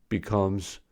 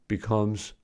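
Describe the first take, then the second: No difference in how they are said.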